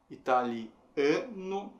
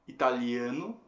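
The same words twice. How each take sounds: First: "italiano" very slowly, stressing the "a" before "no"; syllable by syllable. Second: Said in the usual way. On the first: Shown as a demonstration. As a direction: break up "italiano", holding the stressed "a". ("italiano" bem devagar, separado, com o "a" de "ano" forte) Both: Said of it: "a gente teria".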